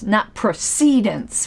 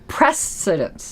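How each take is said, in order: First: The stress is on the second syllable. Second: The stress is on the first syllable. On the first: The speaker calls it wrong. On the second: The speaker calls it right. "Precedence, not precedence. ... the accent is on the first syllable"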